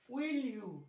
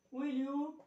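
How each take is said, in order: First: Said in the usual way. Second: "will you" higher, rising at the end. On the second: Shown as a demonstration. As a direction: swing "will you" upward into a question. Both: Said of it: "Rising tone, use rising tone".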